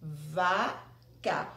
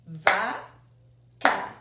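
First: Said in the usual way. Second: "Vaca" called out much louder, VA-CA, one clap per syllable; clapped syllables. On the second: Shown as a demonstration. Teacher clapping syllables with the children, loud "Vaca". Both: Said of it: "se eu fosse bater palminhas".

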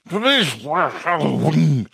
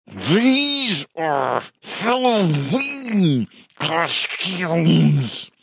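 First: High, slow growl that garbles the words; garbled werewolf speech. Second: Extremely slow, high, stretched-out growl; laboured werewolf howl. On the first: Werewolf tries explaining to police, growling the words garbled. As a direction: attempt speech through a wolf's muzzle. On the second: Werewolf retries explaining to police, howling each word very slowly. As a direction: howl each word separately, straining to be understood. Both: A narrator's reading.

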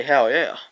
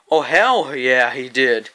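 First: Said in the usual way. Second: Drawn-out, relishing "hell yeah"; slow emphatic hell yeah. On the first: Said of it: "I didn't really say". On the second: Retold or imitated. To the teacher about the kid, slow gleeful yes. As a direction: savor "hell" slowly, tattling with glee. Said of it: "I didn't really say, "Hell yeah".

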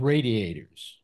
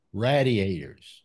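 First: Radiators with RAY, as in ray of light; plain radiators. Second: Radiators with a short A, like RAD; Marjorie's radiators. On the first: Shown as a demonstration. Host saying radiators his own way. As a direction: say radiators as RAY-dee-ay-tors. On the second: Retold or imitated. Host imitating how his wife says radiators. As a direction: say radiators as RAD-ee-ay-tors, slowly. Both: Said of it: "or as Marjorie calls them".

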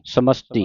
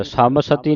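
First: ਸਮਸਤੀ run together as "samasti"; joined reading. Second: ਸਮਸਤੀ split as "samasati", extra vowel before the t; mistaken broken-up reading. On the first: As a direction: say ਸਮਸਤੀ as one word, s straight into t. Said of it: "ਇਕੱਠਾ ਪੜ੍ਹਨਾ". (ਸਮਸਤੀ ਇਕੱਠਾ ਪੜ੍ਹ ਕੇ, ਸੱਸਾ ਤੱਤੇ ਨਾਲ ਜੋੜ ਕੇ) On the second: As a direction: break ਸਮਸਤੀ up with an added "a" after the s. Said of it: "ਨਹੀਂ ਕਹਿਣਾ". (ਸਮਸਤੀ ਨੂੰ ਤੋੜ ਕੇ "ਸਮਸਤੀ" ਦੇ ਸੱਸੇ ਮਗਰ ਅ ਲਾ ਕੇ) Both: Shown as a demonstration.

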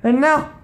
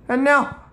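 The two takes are said the same way.

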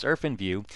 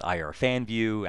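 First: "Irfan View", first syllable like "ur", not spelled out; proper pronunciation. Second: "I R Fan View", letters "eye, ar", then the word fan; spelled-out pronunciation. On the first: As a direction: say "Irfan View" with Irfan as one name, "ER-fan". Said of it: "the proper pronunciation is Irfan View". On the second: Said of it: "some people call, call it". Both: Shown as a demonstration.

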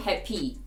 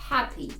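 First: Happy stressed on its end, hap-PY; happy mis-stressed as hap-PEE; wrong stress on second syllable. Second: Happy stressed at the front, HAP-py; weight on the "ha" of happy, light ending; stress on first syllable. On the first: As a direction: throw the weight onto the final "py" of happy. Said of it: "Ми не кажемо happy". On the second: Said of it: "ми кажемо happy". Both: Shown as a demonstration.

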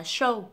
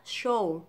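First: "show" open, with no L at the end; wrong first syllable. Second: "show" closed with a dark L, like "shoal"; correct first syllable. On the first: Teacher warning against the error, "show" lacking L. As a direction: say plain "show", rounding off without L. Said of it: "chứ không phải là". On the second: Teacher giving the right syllable, "show" with dark L. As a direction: end "show" with the tongue up for L. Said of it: "âm tiết đầu tiên được nhấn sẽ là". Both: Shown as a demonstration.

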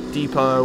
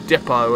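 First: Depot said DEE-poh, long first vowel. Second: Depot said DEP-oh, short first vowel. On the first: Offering viewers the other version, depot as DEE-poh. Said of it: "or a depot". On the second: Telling viewers where they are going, depot as DEP-oh. Corrects himself to another pronunciation. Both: Real, not acted.

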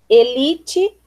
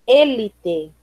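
First: Said in the usual way. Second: "élite" stressed on É, clear final e; Spanish stress. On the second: Shown as a demonstration. Teacher reading the list, "élite" with Spanish stress on É. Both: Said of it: "diferença entre as palavras heterotônicas".

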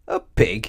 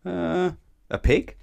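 First: Loud elephant trumpet. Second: Slow, high, hesitant answer; unsure guess. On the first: Elephant mocking Mister Dizzy's answer, trumpeting it. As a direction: blare it out in disbelief. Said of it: "he trumpeted". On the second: Mister Dizzy stumped by the elephant's riddle, hesitant and high. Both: A narrator's reading.

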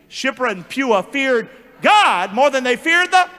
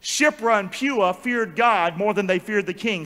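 First: Louder, higher hit on "God", left hanging after "the"; prompting stress on God. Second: Said in the usual way. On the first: Shown as a demonstration. Preacher has congregation repeat it, "God" punched, "the" left hanging. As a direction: punch "God", then stop at "the" for others to finish. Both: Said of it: "Say that with me".

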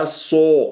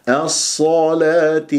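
First: الصا rounded into الصو; rounded vowel mistake. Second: Slow الصلاة, full ص then open thin لا; correct light lam. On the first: Teacher imitates the error, rounded الصو. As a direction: purse the vowel after ص into o. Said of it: "ولا تكور". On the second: Teacher shows students how, slow clean الصلاة. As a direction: stretch الصلاة with an unrounded vowel. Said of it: "هكذا، الصلاة". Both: Shown as a demonstration.

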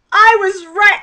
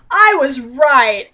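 First: Higher, louder gleeful "I" rising; triumphant squeal. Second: Slow, louder gloating; triumphant. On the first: Reader to viewers, gleeful about being right. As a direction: crow it out with glee. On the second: Reader to viewers, gloating about the prediction. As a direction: savour the win. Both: Real, not acted.

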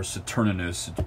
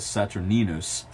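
First: Saturninus stressed on the second syllable, TUR; alternative pronunciation. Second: Saturninus with NEE as the stressed third syllable; first pronunciation variant. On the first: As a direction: say "Saturninus" as suh-TUR-nuh-nus. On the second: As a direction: say "Saturninus" as sat-er-NEE-nus. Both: Shown as a demonstration. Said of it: "a couple different ways to pronounce that name".

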